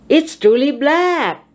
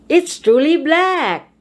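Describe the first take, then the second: Both takes have the same delivery.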